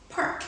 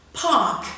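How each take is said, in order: First: Park with the R before k; American park. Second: Park as pahk, no R. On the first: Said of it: "second in General American". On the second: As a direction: say Park the British way, no R. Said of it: "first in received pronunciation". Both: Shown as a demonstration.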